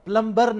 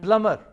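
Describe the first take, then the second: First: The b sound is pronounced in the middle. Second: The b sound is left silent in the middle. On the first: The speaker calls it wrong. "प्लम्बर नहीं है" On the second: The speaker calls it right. "बी silent है"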